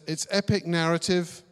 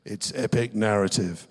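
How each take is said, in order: First: It is read in a plain voice. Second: It is read in a dramatic movie-trailer voice.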